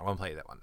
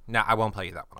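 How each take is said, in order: First: Dropped to a muttered aside; quiet aside. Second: Said in the usual way. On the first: Shown as a demonstration. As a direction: say it softly under your breath, to yourself.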